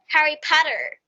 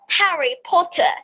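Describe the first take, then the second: First: It is said with an American accent. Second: It is said with a British accent. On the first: "But in America, we tell" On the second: "We choose like British"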